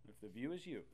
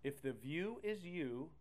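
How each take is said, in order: First: Said in the usual way. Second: Slow, rising stress on is; slow emphatic. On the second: Shown as a demonstration. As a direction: stretch it out, rise on is.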